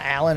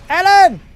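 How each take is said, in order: First: The name is said in a plain, ordinary voice. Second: The name is shouted in an imitated movie voice. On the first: The speaker calls it wrong. "It's not Alan" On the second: The speaker calls it right. "it's Alan! ... do the Robin Williams"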